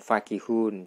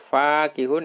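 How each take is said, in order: First: The first vowel is short, without alif. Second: The first vowel is long, with alif.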